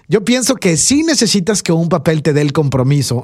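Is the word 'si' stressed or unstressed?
stressed. The word 'sí' is stressed, meaning yes.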